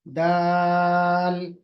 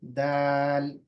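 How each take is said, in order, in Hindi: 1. स्वर बहुत लंबा खींचा जाता है। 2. स्वर बस थोड़ी देर ही रोका जाता है। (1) "बहुत लंबा भी नहीं खींचना है। ... ये भी गलत।" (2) "दो हरकत या उससे उससे किसी कदर ज्यादा। ... बस काफी है।"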